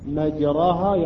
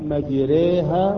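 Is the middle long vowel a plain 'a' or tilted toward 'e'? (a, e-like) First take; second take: a; e-like. First: The middle long vowel is a plain open a. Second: The middle long vowel is tilted toward e.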